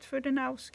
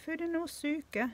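First: The word is said in an anglicized way. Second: The word is said the Japanese way. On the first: The speaker calls it wrong. "not Fudenosuke" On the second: The speaker calls it right. "It's Fudenosuke"

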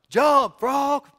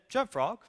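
First: It is said very loudly, a bigger yell. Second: It is said at normal volume.

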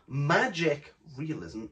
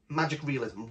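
First: The word magic carries the main stress. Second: The word realism carries the main stress. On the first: The magic element is what matters most. The speaker calls it wrong. "It's not magic realism" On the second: The realism is as important as the magic. The speaker calls it right. "it's magic realism, realism"

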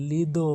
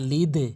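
First: The final d is followed by a full o vowel. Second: The final d has a light downward echo. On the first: The speaker calls it wrong. "অনেকেই লিদো বলে" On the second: The speaker calls it right. "ইয়া লিদে কিন্তু বলতে হবে"

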